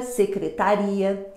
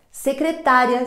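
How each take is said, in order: First: Secretaria slowly, the stress moved to RI; slow secretaria, RI strongest. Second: Secretária with the stress on TÁ; secretária, TÁ strongest. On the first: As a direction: draw out secretaria and land on RI. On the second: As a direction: lean on TÁ in secretária. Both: Shown as a demonstration. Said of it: "mas de tonicidade diferente".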